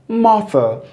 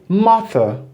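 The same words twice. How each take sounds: No difference in how they are said.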